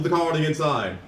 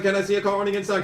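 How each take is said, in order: First: Said in the usual way. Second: Fast higher auctioneer patter. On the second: Retold or imitated. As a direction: rattle it off like an auctioneer. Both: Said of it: "he sounds like a fucking auctioneer".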